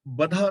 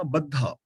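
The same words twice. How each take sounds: First: ਬੱਧਾ with a single, undoubled dh; ਬੱਧਾ read lightly as ba-dha, no held consonant; mispronounced ਬੱਧਾ. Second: ਬੱਧਾ with a held, doubled dh; ਬੱਧਾ read with a geminated dh; correct doubled consonant. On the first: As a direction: say ਬੱਧਾ wrongly as "badha", short middle consonant. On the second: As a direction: say ਬੱਧਾ as "bad-dha", leaning on the middle consonant. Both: Shown as a demonstration. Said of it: "ਬੱਧਾ ਨਹੀਂ ਪੜਨਾ".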